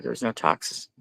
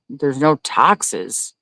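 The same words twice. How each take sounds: First: Said in the usual way. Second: Slow disbelief. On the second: Real, not acted. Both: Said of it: "Wait a minute".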